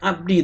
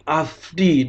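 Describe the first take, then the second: First: The middle consonant is a hard b sound. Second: The middle consonant is a soft f sound. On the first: The speaker calls it wrong. "bukan abdi" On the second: The speaker calls it right. "tapi afdi"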